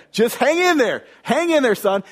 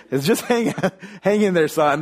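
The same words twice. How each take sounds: First: Retold yell back. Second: Said in the usual way. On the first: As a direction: yell it back across the field, high and strained. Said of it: "he's yelling back". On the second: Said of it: "He's like".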